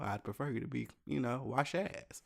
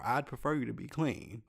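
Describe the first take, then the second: First: Softer, blunt aside of what he really meant; blunt inner thought. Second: Said in the usual way. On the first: Retold or imitated. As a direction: drop the politeness, say it under your breath. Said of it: "I didn't say that, but". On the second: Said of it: "I didn't say that".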